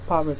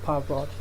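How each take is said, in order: First: The unstressed vowel is a weak schwa. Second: The unstressed vowel is a full vowel. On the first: The speaker calls it right. "This is pronounced parrot" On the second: The speaker calls it wrong. "instead of parrot"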